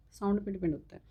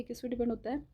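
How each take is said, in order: First: "sound पे depend होता है।" with "sound" stressed and a falling end; answer stated firmly. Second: "किस पे डिपेंड होता है?" asked to the class with a rising end; asking question. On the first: Teacher answering her own question for students, stressing sound. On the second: Teacher quizzing students on what it depends on, rising question. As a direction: quiz the class, lifting at the end on "है". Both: Shown as a demonstration.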